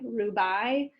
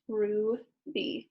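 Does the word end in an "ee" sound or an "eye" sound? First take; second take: eye; ee. First: The final vowel sounds like "eye". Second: The final vowel sounds like "ee". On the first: The speaker calls it wrong. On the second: The speaker calls it right.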